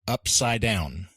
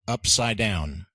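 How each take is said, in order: First: The d sound in upside is dropped. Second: The d sound in upside is dropped.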